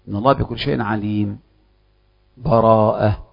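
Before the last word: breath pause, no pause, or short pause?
breath pause. A full stop with a breath before the last word. The reciter fully stops between the two passages. "الوقف يكون مع أخذ النفس"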